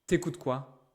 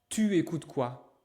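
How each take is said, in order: First: The word 'tu' is shortened to 't'. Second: The word 'tu' is said in full. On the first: "the natural way that French people speak in daily life" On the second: "Elle ne dit pas tu écoutes quoi"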